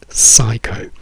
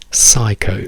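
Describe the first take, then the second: Both takes have the same delivery.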